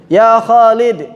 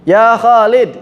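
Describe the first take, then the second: No difference in how they are said.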